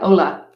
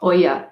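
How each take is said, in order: First: The middle consonant is an L sound. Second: The middle consonant is a Y sound. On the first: The speaker calls it wrong. "they are spelled Ola, like Ola" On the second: The speaker calls it right. "You don't pronounce the L's"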